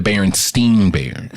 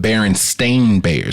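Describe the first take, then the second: First: The name's second part sounds like 'stein'. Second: The name's second part sounds like 'stain'. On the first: The speaker calls it wrong. "not the Berenstein Bears" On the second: The speaker calls it right. "Their name was the Berenstain Bears"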